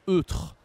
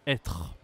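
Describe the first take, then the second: First: "eutre" with a rounded eu at the start; wrong-word demo, higher euh in "eutre"; missing circumflex. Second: Low "Être" with an open è; corrected "Être", low open eh; circumflex like grave. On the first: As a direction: say "eutre" as UH-truh, deliberately wrong. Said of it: "Si je n'utilise pas l'accent circonflexe". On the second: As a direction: say "Être" as EH-truh, pitch dropped. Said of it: "comme l'accent grave". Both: Shown as a demonstration.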